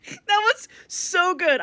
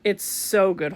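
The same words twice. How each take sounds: First: Laughing. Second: Said in the usual way. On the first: Real, not acted. Laughing at tie scene.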